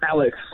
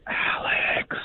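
First: It is said in a normal voice. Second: It is said in a whisper.

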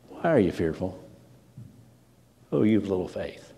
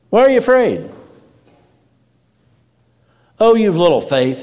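First: It is said in a gentle, understanding tone. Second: It is said in a harsh, rebuking tone.

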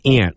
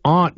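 First: It is said with a general American accent. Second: It is said with a Boston accent.

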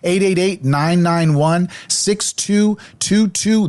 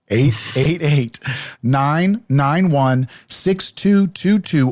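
First: The number is said quickly. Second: The number is said slowly.

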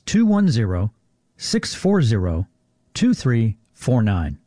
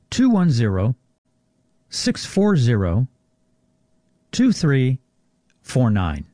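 First: The number is read at normal speed. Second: The number is read more slowly.

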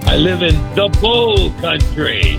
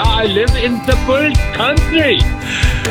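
First: It is said in his normal accent. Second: It is said in a German accent.

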